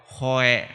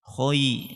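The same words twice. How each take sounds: First: Khoe ending in e instead of i; imitating the wrong khoe vowel; misread khoe. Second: Khoi ending in a clear i glide; khoi, not khoe; correct khoi diphthong. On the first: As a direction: end khoe on a lax e. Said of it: "ada yang baca". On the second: Shown as a demonstration. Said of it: "tadi masih saya dengar ada yang baca".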